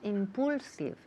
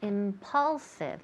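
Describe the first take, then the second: First: The second vowel sounds like a Spanish 'u'. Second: The second vowel sounds like a short 'a'. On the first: The speaker calls it wrong. "Nunca decimos impulsive. Eso es típico de Spanish" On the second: The speaker calls it right. "pronunciamos esa U como si fuera una A"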